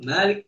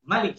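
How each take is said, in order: First: The first vowel is held long. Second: The first vowel is kept short. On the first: The one who owns. "dibaca dengan uh, panjang" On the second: The king of that day. "kalau dibaca pendek"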